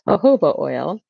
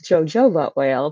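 First: Jojoba is sounded differently from how it is spelled. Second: Jojoba is sounded out exactly as it is spelled. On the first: The speaker calls it right. "but it's actually pronounced jojoba oil" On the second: The speaker calls it wrong. "it looks like it's jojoba oil"

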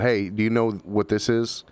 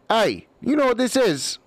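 First: It is said in the speaker's ordinary voice. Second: It is said in a put-on character voice. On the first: The player is asking out of character. "if someone calls across the table" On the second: The player is speaking as their character. "there's a different inflection. This person is now in character"

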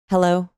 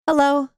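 First: It is said lower, on the out-breath. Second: It is said high, on a full in-breath. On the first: The speaker seems calm and at ease. The speaker calls it right. "versus the out breath" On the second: The speaker seems anxious and nervous. The speaker calls it wrong. "hello up here"

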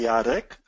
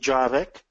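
First: The name is said the native Polish way. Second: The name is said as spelled in English. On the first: The caller has heard the name spoken before. "I know that they heard my name" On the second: The caller has only seen the name written. "then somebody read my name"

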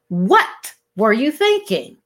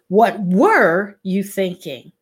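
First: The stress falls on the word what. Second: The stress falls on a later word.

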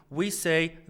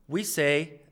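Both takes have the same delivery.

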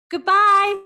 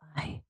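First: It is said in a normal voice. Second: It is said in a soft voice.

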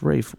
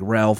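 First: The name is said without an L sound. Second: The name is said with an L sound. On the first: The speaker calls it right. "apparently it's pronounced Rafe" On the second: The speaker calls it wrong. "you just read it, it looks like Ralph Fiennes"

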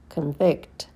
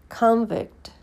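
First: The stress is on the second syllable. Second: The stress is on the first syllable. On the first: It is a verb. "and then the verb" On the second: It is a noun. "First, you hear the noun"

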